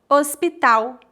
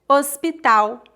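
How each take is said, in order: No difference in how they are said.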